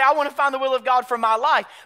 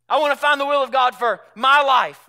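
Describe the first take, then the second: First: No special stress falls on my. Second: The stress falls strongly on my.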